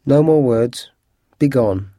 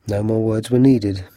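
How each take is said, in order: First: Firm, understated command; curt dismissal. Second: Said in the usual way. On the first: A narrator's reading. Holmes sends the grateful thief out, curtly dismissive. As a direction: cut him off and send him away.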